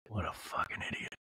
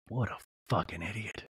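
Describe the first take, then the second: First: Low, softer whispered macho grumble; hushed mock macho. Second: Mock manly Sean. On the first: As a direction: mutter it under your breath like a tough guy. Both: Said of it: "Like, very manly".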